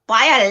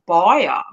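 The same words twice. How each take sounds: First: It is said flat and squashed together. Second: It is said with a rounded, held mouth. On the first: "we just squash it" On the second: "Like you're holding their mouth like this"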